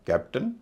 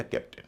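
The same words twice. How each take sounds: First: कैप्टन with "tuhn" at the end; unstressed second syllable of कैप्टन as a short uh; कैप्टन said "KAP-tuhn"; weak schwa ending. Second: कैप्टन with "tin" at the end; weak short i in the last syllable of कैप्टन; कैप्टन said "KAP-tin". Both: Shown as a demonstration. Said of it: "अ या ई होगा".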